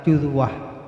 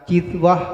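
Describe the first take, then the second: First: The first vowel is a rounded u sound. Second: The first vowel is a front i sound.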